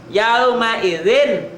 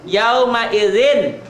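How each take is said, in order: The two takes are said the same way.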